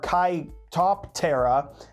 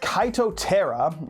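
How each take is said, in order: First: The P in the name is pronounced. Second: The P in the name is silent.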